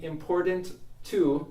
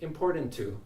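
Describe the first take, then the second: First: Two separate T sounds are pronounced. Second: A single T sound joins the words.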